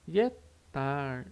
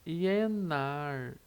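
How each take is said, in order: First: The middle consonant is a clipped, unreleased t. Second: The middle consonant is a doubled n sound. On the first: "com som de T seco" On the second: "esse Szinho fica com som de N"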